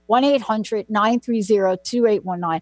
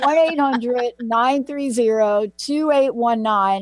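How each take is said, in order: First: The number is said at a normal pace. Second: The number is said slowly.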